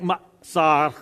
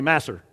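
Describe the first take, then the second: First: It is said with a Hebrew-like pronunciation. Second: It is said with a Texan accent.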